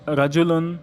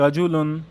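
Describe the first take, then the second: Both takes have the same delivery.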